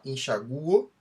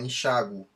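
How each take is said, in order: First: The stress falls on the vowel U. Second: The stress falls on the vowel A. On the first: "Se forem pronunciadas com U tônico" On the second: "se forem pronunciadas com A ou I tônicos"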